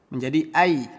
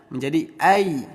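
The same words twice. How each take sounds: Both takes have the same delivery.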